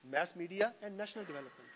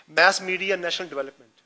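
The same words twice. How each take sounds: First: The title repeated slowly and much softer. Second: Slow, spelled-out book title with "Mass" stressed; slow dictation. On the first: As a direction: echo the title under your breath for the class. (नाम धीमे और बहुत हल्के से दोहराते हुए) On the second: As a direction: read the title slowly, as if for notes. (किताब का नाम धीरे-धीरे, "Mass" पर ज़ोर) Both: Shown as a demonstration.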